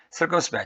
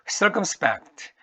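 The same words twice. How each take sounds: First: Said in the usual way. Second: Circumspect drawn out slowly, pitched higher, with its accented syllable leaned on; marked stress. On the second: Shown as a demonstration. Teacher slowly modeling where the stress falls in circumspect for students. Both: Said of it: "액센트 이름절입니다".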